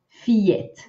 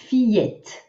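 No difference in how they are said.

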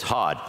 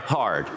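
First: It is said in a Boston accent. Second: It is said in a plain, neutral accent.

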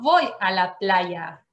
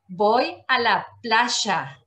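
First: The y in playa is a soft y sound. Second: The y in playa is a strong sh sound. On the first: The speaker calls it wrong. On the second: The speaker calls it right.

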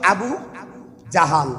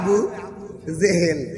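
First: The second word is said with 'a' vowels. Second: The second word is said with 'e' vowels. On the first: The speaker calls it right. "ওনার নাম হলো Abu জাহাল" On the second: The speaker calls it wrong. "আমরা কই আবু জেহেল। এই শব্দটা ভুল।"

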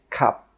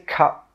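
First: The final P is held with no puff of air. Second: The final P is released with a puff of air. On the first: The speaker calls it right. "No, we say cup" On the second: The speaker calls it wrong. "We don't say cup"

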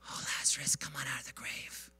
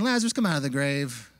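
First: It is whispered very softly. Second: It is said at normal talking volume.

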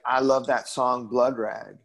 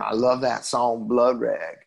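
First: It is said in the speaker's ordinary accent. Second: It is said in an imitated Texas accent.

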